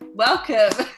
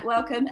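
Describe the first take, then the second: First: The word is said in an eager, enthusiastic tone. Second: The word is said in a flat, lukewarm tone. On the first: The welcome is genuine and supportive. "and now it's actually like, ... like let's go kind of thing" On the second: The welcome is polite but reserved. "Whereas before it was like, yeah, yeah"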